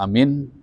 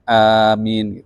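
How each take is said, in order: First: The vowel in the word is short. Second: The vowel in the word is drawn out long. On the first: Trustworthy, as an epithet. The speaker calls it wrong. "Amin pendek" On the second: A plea to grant the prayer. The speaker calls it right. "Panjang. Amin gitu ya"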